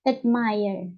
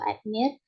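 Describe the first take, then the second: First: The second syllable sounds like 'mire'. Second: The second syllable does not sound like 'mire'. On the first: The speaker calls it right. "Jadi mirror-nya itu seperti mire" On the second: The speaker calls it wrong. "atau admire"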